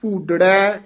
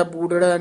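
First: ਭੂਡੜੈ with a tight, held ਡ; tightened pronunciation. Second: ਬੂਡੜੈ said slackly with an extra vowel before ੜੈ; quick, unstressed ਬੂਡੜੈ with a single light ਡ; loose wrong pronunciation. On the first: Teacher modelling the verse word, tightly pronounced ਭੂਡੜੈ. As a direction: press firmly on the ਡ in ਭੂਡੜੈ, no vowel after it. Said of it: "ਥੋੜ੍ਹੇ ਜਿਹੇ ਕੱਸ ਕੇ ਪਦ ਉਚਾਰਨ ਕਰਨੇ". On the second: Teacher showing students what to avoid, loose ਬੂਡੜੈ. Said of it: "ਬੂਡੜੈ ਨਹੀਂ ਕਹਿਣਾ". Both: Shown as a demonstration.

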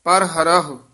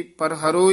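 First: ਪਰ ਹਰਹੁ as "par ha-ra-ho"; both h sounded. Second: ਪਰ ਹਰੋ ending in plain "-ro"; dropped second h. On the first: Teacher showing correct reading, ਪਰ ਹਰਹੁ both h. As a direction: breathe out each h in ਪਰ ਹਰਹੁ. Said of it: "ਦੋਵੇਂ ਹਾਹੇ ਉਚਾਰਨ ਕਰਨੇ ਹਨ". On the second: Teacher showing a common mistake, ਪਰ ਹਰੋ one h. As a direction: leave out the final h of ਪਰ ਹਰੋ. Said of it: "ਇੱਕ ਹਾਹਿਆ ਛੱਡ ਜਾਂਦੇ ਨੇ". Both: Shown as a demonstration.

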